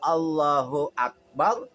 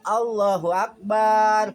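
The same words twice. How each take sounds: First: The last vowel of akbar is kept short. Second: The last vowel of akbar is drawn out long. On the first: God is great. The speaker calls it right. "Allah Maha besar" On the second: The phrase refers to a drum. The speaker calls it wrong. "akbar artinya bedug"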